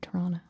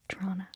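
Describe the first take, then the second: First: The second T sound is left out. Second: It is squeezed short with a ch-like sound. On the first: The speaker sounds like a local. "without the second T" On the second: The speaker sounds as local as possible. "The most local you can get is Trona with like a C H"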